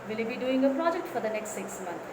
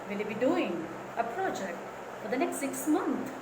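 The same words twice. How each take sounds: First: The question is said flatly, without raising the tone. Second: The question is said with a raised, curious tone. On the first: The speaker calls it wrong. "Don't ask like that" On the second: The speaker calls it right. "Keep the question mark and raise your tone"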